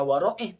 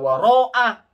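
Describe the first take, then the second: First: The final syllable sounds like 'ih'. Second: The final syllable sounds like 'ah'. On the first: The speaker calls it right. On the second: The speaker calls it wrong. "Saya salah baca"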